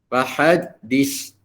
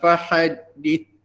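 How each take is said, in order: First: The final consonant is a hissing s sound. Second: The final consonant is a soft th sound. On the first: The speaker calls it wrong. "Contoh yang salahnya" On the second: The speaker calls it right. "Letakkan di makhraj yang betul"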